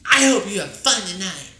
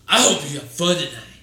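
First: It is said in a high, girly voice. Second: It is said in a deep, male voice.

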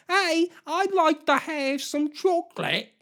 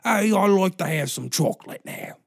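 First: The voice sounds young. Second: The voice sounds old.

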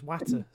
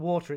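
First: The word is said the Derbyshire way. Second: The word is said the standard, non-Derbyshire way. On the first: "it's watter" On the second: "In Derbyshire, it's not water"

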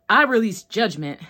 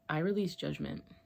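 First: It is said with strong, intense passion. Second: It is said with only moderate passion. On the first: The speaker calls it right. "now I'm acting" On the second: The speaker calls it wrong. "even that isn't good"

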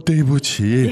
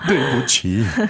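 First: It sounds nervous and apologetic, like a small slip. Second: It sounds dramatic and deeply sorrowful, like a soap opera. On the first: A minor mistake, like forgetting a business card. "you might be nervous in a business meeting and you forgot to bring your business card" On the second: Something serious has happened. "If you're like really, Really, like"

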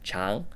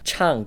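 First: The syllable is said with the second tone. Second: The syllable is said with the fourth tone. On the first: The word means long. "for the long version, you'll want to use the second tone" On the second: The word means singing. "you'll want to use the fourth tone"

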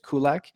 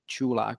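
First: The name does not begin with a 'ch' sound. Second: The name begins with a 'ch' sound. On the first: This is how English speakers usually say it. "the usual pronunciation that English natives always say is Kulak" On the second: This is the original Czech pronunciation. "In Czech, it's actually Chulak, so it's like choo-choo"

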